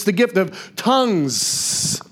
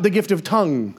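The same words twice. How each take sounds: First: "tongues" drawn out with a long hissed final s; slow, lingering plural ending on "tongues"; stress on plural S. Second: "tongue" ended cleanly with no final s; contrasting singular ending on "tongue". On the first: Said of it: "not the gift of tongue". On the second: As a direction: say "tongue" as a pointed singular, no s sound. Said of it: "'cause it's the gift of tongues". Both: Shown as a demonstration.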